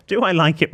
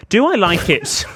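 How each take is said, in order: First: Said in the usual way. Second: High, loud mock role-play question. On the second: Host offers co-host a role play of the letter, hammed-up high voice. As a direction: pitch it up and overplay the question. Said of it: "should we do a role play?".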